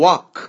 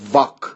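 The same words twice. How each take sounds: First: The word begins with rounded-lip w sound. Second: The word begins with a v sound. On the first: The speaker calls it right. "باید بگین walk ... در واقع دهان لبها گرد میشه" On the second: The speaker calls it wrong. "W رو شما نباید بگین walk، این و وی هست"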